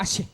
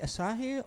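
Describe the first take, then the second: First: Some vowels are dropped, leaving a shorter word. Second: Every vowel of the word is pronounced. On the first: The speaker calls it right. "You don't pronounce the A or the U" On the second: The speaker calls it wrong. "Is that pronounced right"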